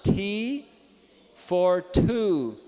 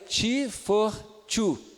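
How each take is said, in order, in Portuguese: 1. Os sons do t são aspirados, no estilo inglês. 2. Os sons do t são dentais, no estilo brasileiro. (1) "Vamos lá" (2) "Agora o brasileiro falaria"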